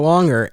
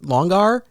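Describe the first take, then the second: First: The word ends with a plain 'er' sound. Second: The word ends with a full 'ar' sound. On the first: It is said like the ordinary word. "or or longer?" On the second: The spelling with AR is spoken out. "do I pronounce it Longar"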